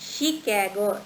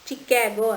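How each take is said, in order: First: The word begins with a sh sound. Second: The word begins with a ch sound. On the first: The speaker calls it right. "ಶ sound ಬರಬೇಕಿಲ್ಲಿ" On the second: The speaker calls it wrong. "ಎಲ್ಲರೂ ಹೇಳೋದೇನೋ ಇದು ಚಿಕ್ಯಾಗೋ ಚಿಕ್ಯಾಗೋ ಅಂತೀವಿ"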